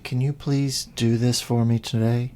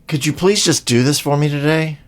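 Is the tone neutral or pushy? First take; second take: neutral; pushy. First: It sounds like a plain, neutral request. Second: It sounds pushy and loaded with attitude.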